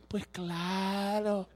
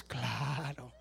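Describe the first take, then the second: First: Sarcastic drawl. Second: Much lower, very slow "Pues claro" in a put-on voice; deep mock voice. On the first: Acted. Preacher mocking far-fetched testimonies with slow sarcasm. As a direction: stretch "Pues claro" like an eye-roll. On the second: Preacher answering the congregation in a deep mocking voice. Sarcastic reply to testimonies.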